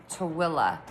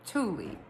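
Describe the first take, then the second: First: "Tooele" as "tuh-WILL-uh", three syllables; Utah pronunciation. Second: "Tooele" as "TOO-lee", two syllables; pronounced as spelled. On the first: Correcting oneself for listeners, "Tooele" as "tuh-WILL-uh". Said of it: "But Utahns say it Tooele". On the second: Showing how the spelling reads, "Tooele" as "TOO-lee". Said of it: "it's actually spelled". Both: Shown as a demonstration.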